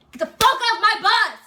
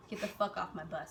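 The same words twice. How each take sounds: First: Loud, high, drawn-out bellowed order; sergeant's yell. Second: Low, quiet imitated order; deceptively nice. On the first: Retold or imitated. Sergeant repeats order to recruits who didn't hear, yelled. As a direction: imitate a drill sergeant exploding at full volume. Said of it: "Oh, you didn't hear me?". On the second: Sergeant orders recruits off the bus, deceptively nice. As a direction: say it softly, as if all is nice. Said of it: "like, all nice".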